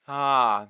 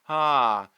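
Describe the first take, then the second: Both takes have the same delivery.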